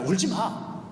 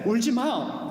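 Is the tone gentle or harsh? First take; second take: harsh; gentle. First: It is said in a strong, harsh tone. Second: It is said in a soft, warm tone. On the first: It scolds the listener. The speaker calls it wrong. "이런 강한 어조로 우리에게 말씀하시는 것이 아니라" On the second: It comforts the listener. The speaker calls it right. "그런 포근함이 있는 말씀입니다"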